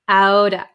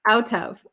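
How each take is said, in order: First: The T is flapped and the V is dropped. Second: The T and V are both fully pronounced.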